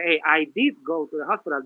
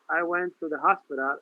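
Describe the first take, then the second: First: "did" pushed out as the strongest word; stress on did. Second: Said in the usual way. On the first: Shown as a demonstration. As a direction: lean on "did" to insist. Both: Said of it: "That did is making it more emphatic".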